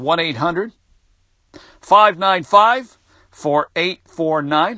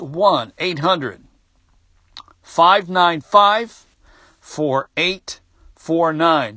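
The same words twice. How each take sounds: First: The number is read at normal speed. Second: The number is read more slowly.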